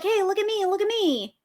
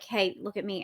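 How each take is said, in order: First: High, sing-out plea for notice; attention seeker. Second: Low, soft attempt at drawing notice; attention seeker, subdued. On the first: Acted. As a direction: call out higher, drawing the words out. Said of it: "they're like". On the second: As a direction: say it lower and much softer, half-hearted. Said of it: "We're like".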